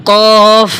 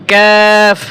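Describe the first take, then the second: First: Slow, thick Arabic কফ; heavy qaf. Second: কাফ with a thin k and long open vowel; slow, thin Arabic কাফ; light kaf. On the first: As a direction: draw out a heavy কফ. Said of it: "কফ মোটা হবে". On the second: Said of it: "পাতলা হবে". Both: Shown as a demonstration.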